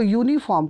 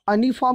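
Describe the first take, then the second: First: The word begins with a 'yoo' sound. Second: The word begins with a plain 'uh' vowel. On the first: The speaker calls it right. "इसको यूनिफॉर्म कहते हैं" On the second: The speaker calls it wrong. "अनिफॉर्म नहीं कह सकते"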